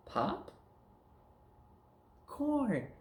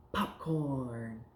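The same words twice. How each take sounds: First: "Pop", long pause, then high "Corn"; word chopped up. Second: Said in the usual way. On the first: Shown as a demonstration. Teacher taking words apart for pupil, separate "Pop", "Corn". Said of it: "We're gonna chop 'em up". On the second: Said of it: "now we're gonna take words apart".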